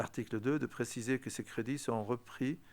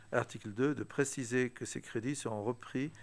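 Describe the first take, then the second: The two takes are said the same way.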